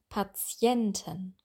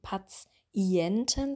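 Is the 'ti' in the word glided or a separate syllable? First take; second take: glided; separate. First: The 'ti' glides like a 'y' sound. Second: The 'ti' is split into separate syllables. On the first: The speaker calls it right. "Das ist wie Patie, also wie ein J" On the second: The speaker calls it wrong. "Wir würden das nicht zerlegen. Wir würden nicht sagen Patienten"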